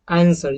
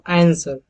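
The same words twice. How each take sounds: First: It is said in an American accent. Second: The same.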